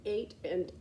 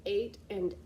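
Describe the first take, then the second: No difference in how they are said.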